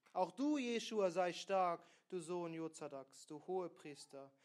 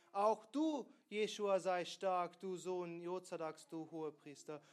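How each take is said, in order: The two takes are said the same way.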